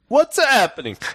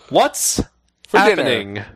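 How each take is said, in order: First: It is said in a put-on Italian accent. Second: It is said in the speaker's normal accent. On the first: The speaker calls it right. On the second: The speaker calls it wrong.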